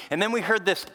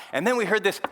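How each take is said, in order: Both takes have the same delivery.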